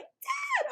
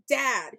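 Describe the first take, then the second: First: Very high mock kid squeal; imitated boy's yell. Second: Loud mock call for dad; imitated boy's yell. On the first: Boy calls his father while they should hide, imitated high yell. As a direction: squeal it like a panicking child, hammed-up. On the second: Boy yells for his father mid-escape, imitated yell. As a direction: call out like the kid, loudly. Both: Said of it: "this boy yells".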